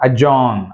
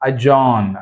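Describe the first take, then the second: No difference in how they are said.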